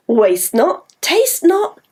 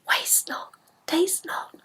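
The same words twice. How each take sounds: First: Said in the usual way. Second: Whispered rhyme; voiceless chant. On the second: Shown as a demonstration. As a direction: hush it like a secret. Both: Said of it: "Shall we try?".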